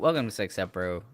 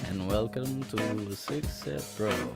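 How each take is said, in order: First: It is said in his own natural voice. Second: It is said in a funny, Dracula-like voice.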